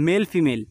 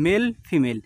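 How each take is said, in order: Both takes have the same delivery.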